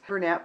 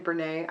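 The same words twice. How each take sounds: First: The name is pronounced the plain English way. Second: The name is pronounced the French way.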